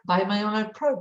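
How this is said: It is said in a superior, talking-down tone. The seller looks down on the buyer. "you're just so stupid that I want to teach you"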